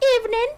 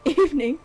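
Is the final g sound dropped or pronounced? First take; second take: dropped; pronounced. First: The final g sound is dropped. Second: The final g sound is pronounced. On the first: "Drop the G. For example, say evening" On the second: "instead of evening"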